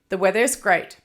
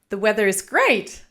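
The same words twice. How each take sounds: First: The voice falls at the end. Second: The voice rises at the end. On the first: The speaker sounds confident, making a statement. The speaker calls it right. "go down at the end of the sentence and to make your statement" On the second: The speaker sounds unsure, as if asking. The speaker calls it wrong. "we might go up at the end of a sentence, which then sounds more like a question"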